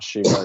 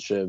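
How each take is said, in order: First: The name ends with an added vowel sound. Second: The name ends on a consonant sound. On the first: The speaker calls it wrong. "in English they always put an A on the end" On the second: The speaker calls it right. "none of them have an A"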